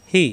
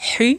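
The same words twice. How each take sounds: First: "হি" with an easy open h; no throat pressure on "হি"; light ha. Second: "হি" with a tight pharyngeal h; strong, constricted h in "হি"; pressed throat ha. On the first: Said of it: "হাকার উচ্চারণ". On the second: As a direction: squeeze the throat to start "হি". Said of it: "কণ্ঠনালীতে চাপ দিয়ে উচ্চারণ". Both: Shown as a demonstration.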